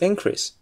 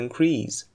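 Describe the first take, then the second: First: The stress is on the first syllable. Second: The stress is on the second syllable. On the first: It is used as a noun. "It's increase" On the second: It is used as a verb. "you should stress the second syllable when using it as a verb"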